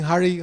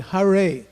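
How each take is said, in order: First: It sounds like the English name Harry. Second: It sounds like neither Harry nor Hari. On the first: The speaker calls it wrong. "like in Harry Potter" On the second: The speaker calls it right. "must be pronounced properly"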